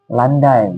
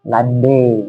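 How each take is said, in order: First: The word ends in an -ai sound. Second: The word ends in an -e sound.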